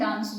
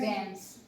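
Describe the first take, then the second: First: It is said in a British accent. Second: It is said in an American accent. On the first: "British English में इस word को हम डांस बोलेंगे" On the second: "कोई American बोलेगा तो वो बोलेगा डांस"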